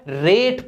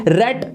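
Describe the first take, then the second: First: रेट said like "rate", long vowel. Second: रेट said like "rat", short open vowel. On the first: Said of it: "last में ई लगा दिया". (रेट में 'ए' लंबा खींचकर) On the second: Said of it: "अब क्या पढ़ा जाएगा?". (रेट को छोटे 'ऐ' से, रैट जैसा) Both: Shown as a demonstration.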